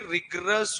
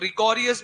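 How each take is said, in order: First: It has no extra syllable before the ending. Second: It has an extra syllable before the ending. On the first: The speaker calls it right. "जबकि actual में ये रिग्रस होता है" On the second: The speaker calls it wrong. "बहुत सारे लोग रिकॉरियस भी बोलते हैं"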